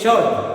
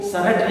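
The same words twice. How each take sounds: First: शर्ट said as shuht with a silent r, louder; correct pronunciation. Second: शर्ट said wrongly with a sounded r; wrong pronunciation. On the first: Teacher giving the right form, silent r in शर्ट. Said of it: "क्या बोलेंगे?". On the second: Teacher showing the wrong way, r sounded in शर्ट. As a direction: read शर्ट as shurt, r rolled out clearly. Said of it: "शर्ट नहीं बोलेंगे". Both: Shown as a demonstration.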